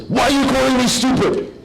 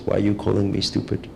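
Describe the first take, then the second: First: High, loud, indignant mock outburst; an affronted man shouting back at the heckler; offended retort. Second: Said in the usual way. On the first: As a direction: whip round and demand an answer.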